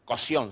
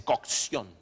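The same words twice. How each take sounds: First: "cocción" with the k sound dropped; mispronounced cocción. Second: "cocción" slowly, with a crisp k before the s; over-articulate "cocción" as "cok-sión"; pedantically correct cocción. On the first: [name] quotes the mistake, "cocción" as "cosión". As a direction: say "cocción" as "co-sión". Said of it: "No se dice, qué sé yo". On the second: [name] corrects the group, "cocción" pedantically as "cok-sión". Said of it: "se dice cocción". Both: Retold or imitated.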